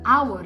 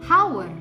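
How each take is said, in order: First: The word begins with a vowel sound. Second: The word begins with an h sound. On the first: The speaker calls it right. "suara vokal" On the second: The speaker calls it wrong. "bukan our"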